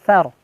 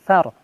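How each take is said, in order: The two takes are said the same way.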